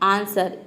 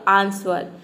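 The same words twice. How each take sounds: First: The word is said with no w sound. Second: The word is said with a w sound. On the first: The speaker calls it right. "ये हम pronounce करते हैं आंसर" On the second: The speaker calls it wrong. "अगर व को यहाँ पे pronounce कर देंगे तो ये हो जाएगा आंसर"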